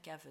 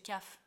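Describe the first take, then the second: First: It ends in a voiced v with a soft vowel. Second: It ends in a voiceless f sound. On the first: It means cellar. The speaker calls it right. "оно заканчивается на «в»" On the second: It sounds like a different word. The speaker calls it wrong. "Если я ее не скажу, вот, не обозначу, у меня получится cave"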